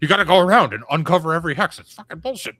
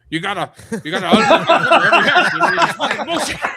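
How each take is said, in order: First: It is said in the speaker's normal voice. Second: It is said imitating Joe the Lawyer's voice.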